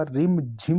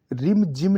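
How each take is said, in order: First: "रिम झिम" with aspirated jh; breathy jh opening the second half of "रिम झिम"; correct pronunciation. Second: "रिम जिम" with plain j; unaspirated j in "रिम जिम"; wrong pronunciation. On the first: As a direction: say "रिम झिम" as rim-jhim. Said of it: "झी आएगा". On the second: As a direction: say "रिम जिम" as rim-jim. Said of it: "रिम जिम नहीं होता". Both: Shown as a demonstration.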